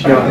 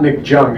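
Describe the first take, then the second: First: The surname begins with a Y sound. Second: The surname begins with a J sound. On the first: The speaker calls it right. "It pronounces the Y" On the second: The speaker calls it wrong. "It was not Nick Jung"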